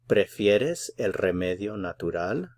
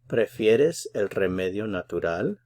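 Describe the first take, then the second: Both takes have the same delivery.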